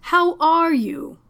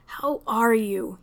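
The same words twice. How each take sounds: First: Slow, high, overbright question; gushing. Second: Gently. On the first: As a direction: make up for the awkwardness with cheer. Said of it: "he practically gushed". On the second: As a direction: ask kindly, taking time. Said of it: "he asked again". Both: Acted.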